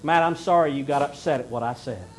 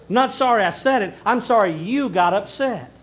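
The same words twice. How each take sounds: First: Said in the usual way. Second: Louder and higher, blunt and defiant; I'm sorry you got upset, said loud and pointed; blunt hidden meaning. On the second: Retold or imitated. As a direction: spell out the real meaning with an edge. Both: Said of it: "use that term sorry to mask".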